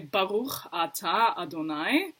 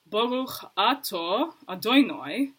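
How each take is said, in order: First: It is said with a non-Ashkenazi pronunciation. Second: It is said with an Ashkenazi pronunciation. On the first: "I would say" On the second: "They would say"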